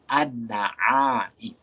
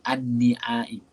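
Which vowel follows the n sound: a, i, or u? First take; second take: a; i. First: The vowel after the n is a. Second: The vowel after the n is i. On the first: The speaker calls it right. "Tapi dibaca dengan baris atas" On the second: The speaker calls it wrong. "Tak dibaca"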